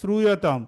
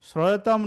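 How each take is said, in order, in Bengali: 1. 'shr'-এর পরের স্বরটি স্পষ্ট 'u'। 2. 'shr'-এর পরের স্বরটি নেই, 'o'-এর মতো। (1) "এটা হচ্ছে শ্রূয়তাম" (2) "শ্রয়তাম নয়"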